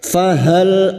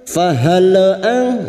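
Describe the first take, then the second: First: The final L stops cleanly without added vowel. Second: The final L bounces with an added vowel. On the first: The speaker calls it right. "Jadi hanya masuk fahal" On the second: The speaker calls it wrong. "Contoh fahal ang fahal ang ya seperti memantulkan selain huruf hijaiyah namanya tawalud"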